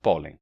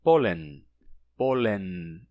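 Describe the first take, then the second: First: Pólen with a nasal vowel, no N touch; pólen, leave the N open; Portuguese nasal ending. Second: Pólen with the tongue touching behind the teeth for N; pólen, N fully touched; Spanish N touched. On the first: Teacher contrasting Portuguese pólen. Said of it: "Que é só pólen". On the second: Teacher demonstrating Spanish pólen. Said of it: "se pronuncia". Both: Shown as a demonstration.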